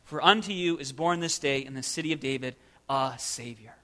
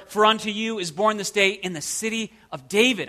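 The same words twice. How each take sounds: First: Hushed and low, pausing before "a Savior"; stress on "a Savior". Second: "city of David" punched and set apart; stress on "city of David". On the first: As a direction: set "a Savior" apart softly as the key. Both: Shown as a demonstration. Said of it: "emphasizing different words of".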